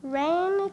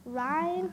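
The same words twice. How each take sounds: First: "reign" said with a long a, like "rain"; "reign" with an ay vowel; corrected reign. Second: "reign" said with a long i, like "rhyne"; "reign" with an eye vowel; mispronounced reign. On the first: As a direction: say "reign" to rhyme with "lane". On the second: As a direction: misread "reign" to rhyme with "fine". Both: Real, not acted.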